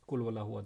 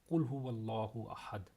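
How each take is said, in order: First: It is recited quickly without pausing. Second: It is recited slowly with pauses.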